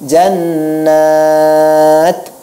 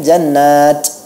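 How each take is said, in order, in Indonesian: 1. Bunyi t terakhir berakhir dengan sedikit hembusan napas. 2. Bunyi t terakhir seperti bunyi ch. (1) "Tapi begini, jannat. Nah, memang ada seperti hentakan nafas sedikit" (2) "kan tidak ada seperti c, gitu kan? Jannat, itu tidak"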